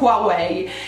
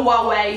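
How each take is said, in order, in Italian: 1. La parola inizia con un suono H udibile. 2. La parola inizia senza alcun suono H. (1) "io lo pronuncio Huawei" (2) "Huawei senza la H"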